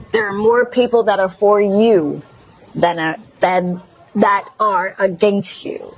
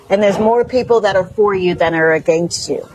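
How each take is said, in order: First: A light Mississippi twang, lightly put on. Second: Said in the usual way. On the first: Shown as a demonstration. Host repeating encouragement to viewers in a light Mississippi twang. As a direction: lean a touch into a Mississippi twang. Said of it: "in my Mississippi twang". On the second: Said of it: "I'll say that one more time".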